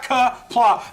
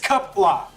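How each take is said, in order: First: The first syllable sounds like 'ka'. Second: The first syllable sounds like 'cup'. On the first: The speaker calls it wrong. "it's not ka pla. There is no ka sound in the Klingon language" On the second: The speaker calls it right. "It's cup la"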